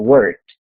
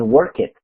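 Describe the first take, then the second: First: The ending is a short T sound, no vowel. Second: The ending is an extra syllable with a vowel. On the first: The speaker calls it right. "Esta ed va a sonar como si fuera una T" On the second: The speaker calls it wrong. "no podemos decir work it, no se puede"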